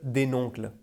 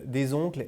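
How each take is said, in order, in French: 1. Un son n est ajouté devant « oncles ». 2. « Oncles » se lie avec un son z, pas de n. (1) "elle disait un oncle, des noncles" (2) "elle disait pas un oncle, des oncles"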